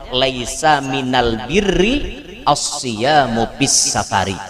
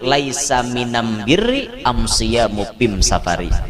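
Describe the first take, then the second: First: It is said in standard Arabic with al. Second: It is said in the tribal dialect with am.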